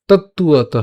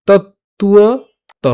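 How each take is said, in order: First: Said in the usual way. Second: তত্তুয়ত stretched very slowly, higher; drawn-out syllables. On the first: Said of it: "সোজা, তত্তুয়ত". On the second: Shown as a demonstration. Teacher drawing out তত্তুয়ত slowly so students hear each sound. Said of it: "খেয়াল করুন যেভাবে আসতেছে".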